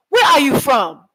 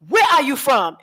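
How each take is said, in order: First: High, loud blunt question; locals asking. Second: High, direct question; demo of their asking. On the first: Retold or imitated. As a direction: fire the question straight out. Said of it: "That's how they ask me". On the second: Shown as a demonstration. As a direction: repeat it just like they say it. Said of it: "You hear how I was just saying it?".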